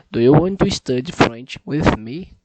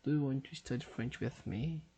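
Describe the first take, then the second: First: Loud, deliberate speech into the mic; a second try so the app accepts it, spoken loud; loud careful repeat. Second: Said in the usual way. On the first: Shown as a demonstration. Loud and deliberate so the machine hears. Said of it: "Facilite, meu caro". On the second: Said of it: "Vamos lá".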